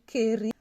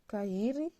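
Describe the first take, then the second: First: The two vowels merge into a single e sound. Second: The a and i are both pronounced separately. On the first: The speaker calls it wrong. "tu ne vas pas lire keri" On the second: The speaker calls it right. "lorsqu'il y a deux voyelles qui se suivent, tu les prononces"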